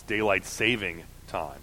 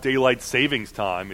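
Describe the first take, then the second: First: Saving with no final S, quiet correction; corrected form. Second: Savings with a final S, "SAY-vingz"; mistaken form. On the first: Pedant corrects someone quietly, saving without the S. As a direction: say saving ending on "ing", softly. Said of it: "It's daylight saving time". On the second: Pedant quotes the mistake, savings with an S on the end. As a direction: say savings ending in a Z sound. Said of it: "you're correcting your pronunciation of stuff". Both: Shown as a demonstration.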